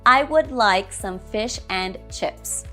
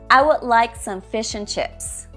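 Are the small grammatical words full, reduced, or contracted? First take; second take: full; reduced. First: Every small word is said in full. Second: The small words are unstressed and reduced.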